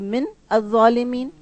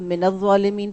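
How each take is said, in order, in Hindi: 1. Min अगले शब्द से अलग पढ़ा जाता है। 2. Min सीधे अगले शब्द में मिलकर पढ़ा जाता है। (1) "अलग पढ़ेंगी तो" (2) "मिलाकर पढ़ना होगा तो"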